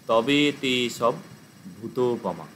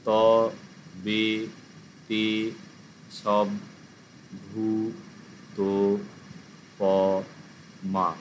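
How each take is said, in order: First: It is said smoothly as one continuous word. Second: Each syllable is said separately with breaks.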